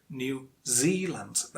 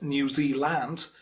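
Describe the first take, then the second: First: The stress is on the second syllable. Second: The stress is on the first syllable. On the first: The speaker calls it right. "And says on the second syllable" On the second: The speaker calls it wrong. "it's not New Zealand"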